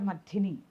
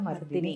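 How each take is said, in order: First: The d sound is aspirated, with a breath. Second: The d sound is plain, without a breath. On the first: The speaker calls it wrong. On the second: The speaker calls it right.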